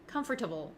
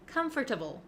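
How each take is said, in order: First: It is said as spelled, com-for-table. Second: It is said as spelled, com-for-table.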